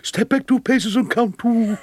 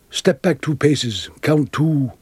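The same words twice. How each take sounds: First: Mock stage call, pitched high and carried through; John Gielgud. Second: Slow, deliberate step-by-step instruction; measured instruction. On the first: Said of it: "he shouted out down to me". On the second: Retold or imitated. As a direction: give the directions slowly, pausing between steps. Retelling Gielgud's quiet first instruction.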